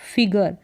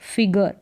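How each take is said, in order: The two takes are said the same way.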